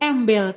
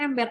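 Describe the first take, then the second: First: The final consonant is an L sound. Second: The final consonant is an R sound. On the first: A young child who cannot yet say R says it this way. The speaker calls it wrong. "Fonologinya baru sampai L, belum sampai R" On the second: This is the proper form of the word. The speaker calls it right. "Kata yang tepatnya ember"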